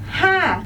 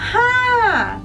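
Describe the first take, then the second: First: The vowel is short and clipped. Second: The vowel is drawn out long. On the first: The speaker calls it wrong. "It's not just ha" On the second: The speaker calls it right. "it's ha with longer sound"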